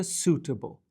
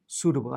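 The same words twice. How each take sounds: First: Suitable with a clear T in the middle; suitable, T fully sounded; careful T. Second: Suitable with the t tapped like a quick D; Suitable, light flapped T; T softened to D. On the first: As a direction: pronounce the t in suitable as a true T. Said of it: "اگه بخوام سریعتر بگم". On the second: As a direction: say Suitable as "soo-duh-bul". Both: Shown as a demonstration.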